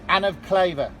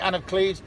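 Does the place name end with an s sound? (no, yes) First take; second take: no; yes. First: The place name ends without an s sound. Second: The place name ends with an s sound. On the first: This is the original name of the place. The speaker calls it right. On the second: This is the name as the king said it. The speaker calls it wrong.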